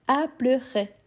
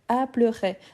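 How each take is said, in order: Both takes have the same delivery.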